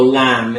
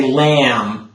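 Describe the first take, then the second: First: LAMB between "lam" and "lahm"; open, slightly rounded "a" in lamb; middle vowel. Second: LAMB with a wide, flat "a"; everyday "lam"; front vowel. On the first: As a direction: say lamb halfway back. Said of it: "you go lamb in the middle". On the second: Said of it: "then you go lamb in the middle". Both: Shown as a demonstration.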